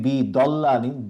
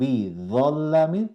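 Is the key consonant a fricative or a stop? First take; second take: stop; fricative. First: The consonant is a stop with the tongue inside. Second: The consonant is a fricative with the tongue out. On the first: The speaker calls it wrong. "দ তখন আমার জিভটা ভিতরে থেকে যাচ্ছে" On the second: The speaker calls it right. "য তখন একটা ঘ্যাস-ঘেঁষে আওয়াজ আসবে"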